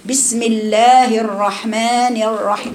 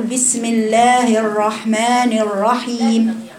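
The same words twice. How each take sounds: First: Slow "الرحمن الرحيم" with the ra pulled back and loose; unhurried wrong ra; floating r again. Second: "الرحمن الرحيم" with the r floating loosely, tongue not reaching its place; slow demo of a loose, floating ra in "الرحيم"; drawn-out wrong ra, tongue hanging in the air. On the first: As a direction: demo the faulty ra, tongue drawn back. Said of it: "كما ذكرت لكم". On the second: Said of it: "تقرأ هكذا". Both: Shown as a demonstration.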